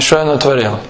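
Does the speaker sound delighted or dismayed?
dismayed. It is said with dismayed regret. The speaker regrets the mess that was made. The speaker calls it wrong. "а не что я натворил"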